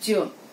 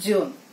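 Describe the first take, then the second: No difference in how they are said.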